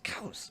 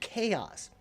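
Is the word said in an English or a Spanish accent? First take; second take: Spanish; English. First: It is said in a Spanish accent, like 'cows'. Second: It is said in a plain English accent.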